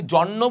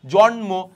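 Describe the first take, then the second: First: জন্ম as jon-no, with long n and no m; m dropped. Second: জন্ম as jon-mo, m audible; m fully sounded. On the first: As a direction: double the n in জন্ম. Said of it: "আমরা কি জন্ম বলি". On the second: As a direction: keep the m in জন্ম. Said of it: "ম উচ্চারণ হচ্ছে কিন্তু". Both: Shown as a demonstration.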